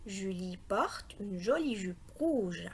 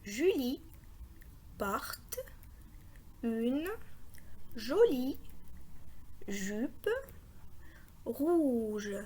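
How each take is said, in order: First: Whole sentence in one slow, connected phrase; lower, unhurried model reading; joined-up reading. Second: Long pause after every word; isolated words, slowly spaced out. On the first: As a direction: read it slowly without stopping. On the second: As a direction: read each word separately for beginners. Models reading one word at a time. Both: Shown as a demonstration.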